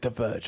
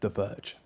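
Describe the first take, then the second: First: It is said at normal volume. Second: It is said quietly.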